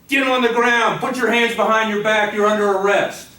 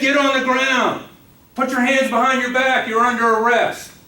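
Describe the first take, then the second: First: The command is said less forcefully. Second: The command is said more forcefully.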